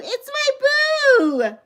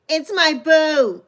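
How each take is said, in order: First: Much higher, slow, crying out my boo; overjoyed squeal. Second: Said in the usual way. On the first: Real, not acted. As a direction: wail it out in happy tears. Repeated greeting, rising excitement.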